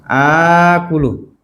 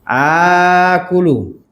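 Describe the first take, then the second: The two takes are said the same way.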